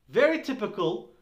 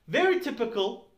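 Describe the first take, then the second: Both takes have the same delivery.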